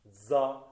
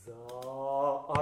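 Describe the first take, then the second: First: ザ cut short like English "the"; clipped vowel. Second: ザー with the vowel held full length; long vowel. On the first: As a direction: clip ザ to a short, English-like syllable. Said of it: "英語のザみたいに聞こえるんですよ". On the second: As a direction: stretch ザー, vowel sustained. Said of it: "長い音符". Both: Shown as a demonstration.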